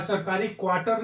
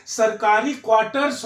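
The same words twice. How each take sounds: First: क्वार्टर without the final s; wrong singular form. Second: क्वार्टर्स stressed, ending in s; correct form with s. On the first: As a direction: end क्वार्टर on r, no s. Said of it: "नहीं होता है". (बिना स के क्वार्टर) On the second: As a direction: stress क्वार्टर्स and sound its final s. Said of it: "सरकारी क्वार्टर नहीं होता है". (क्वार्टर्स पर ज़ोर, अंत में स) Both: Shown as a demonstration.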